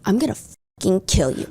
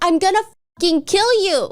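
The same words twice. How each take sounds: First: It is said in a dark, sinister tone. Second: It is said in a desperate, pleading tone.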